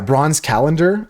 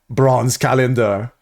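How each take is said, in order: First: It is said in the speaker's normal accent. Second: It is said in a put-on Austrian-style accent.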